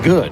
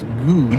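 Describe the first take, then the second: First: The vowel is short, rhyming with hood. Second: The vowel is long, rhyming with food. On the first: The speaker calls it right. "it's pronounced good" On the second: The speaker calls it wrong. "good is not pronounced good"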